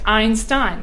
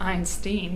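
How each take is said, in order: First: The last syllable rhymes with 'wine'. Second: The last syllable rhymes with 'seen'. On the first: The speaker calls it right. "I like Stein. Stein sounds better" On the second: The speaker calls it wrong. "That sounds ridiculous"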